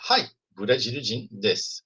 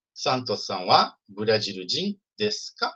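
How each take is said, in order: First: Slow statement, falling to "desu"; answer intonation. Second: Slow model question, rising on "ka"; question intonation. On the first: Teacher models the answer to the question, statement intonation. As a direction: answer word by word, letting "desu" settle without a question lift. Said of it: "E a resposta é". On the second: Teacher repeats the example question for learners, question intonation. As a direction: ask it word by word, lifting "ka" at the end. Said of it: "a entonação vira entonação de pergunta". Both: Shown as a demonstration.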